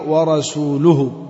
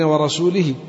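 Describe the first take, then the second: First: The last consonant before the suffix takes a u vowel. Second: The last consonant before the suffix takes an i vowel. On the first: God and His messenger both disown the polytheists. The speaker calls it right. "يعني بالضم، ضم اللام" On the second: God disowns the polytheists and also His messenger. The speaker calls it wrong. "ليس هكذا يا أعرابي"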